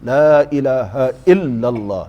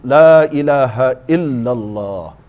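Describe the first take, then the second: No difference in how they are said.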